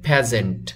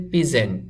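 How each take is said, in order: First: ফ্যাজেন্ট as PHEZ-ent; ফ্যাজেন্ট with short vowel, not pee; correct pronunciation. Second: পিজেন্ট read as written, PEE-zent; পিজেন্ট voiced letter by letter as spelt; spelling pronunciation. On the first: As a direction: say ফ্যাজেন্ট with a short open e first. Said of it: "এটার উচ্চারণ হবে". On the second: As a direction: say পিজেন্ট with an ee in the first syllable. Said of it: "এটা লেখা আছে". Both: Shown as a demonstration.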